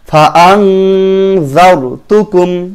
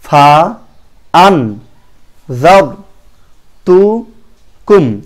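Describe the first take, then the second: First: The syllable ends in a nasal ng sound. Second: The syllable ends in a clear n sound. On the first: The speaker calls it right. "আং হয়েছে" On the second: The speaker calls it wrong. "আন না হয়ে"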